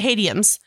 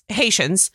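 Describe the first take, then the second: First: The word ends with an 'iums' sound. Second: The word ends with an 'ians' sound. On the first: The speaker calls it wrong. "she mispronounces Haitians" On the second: The speaker calls it right. "And it's Haitians"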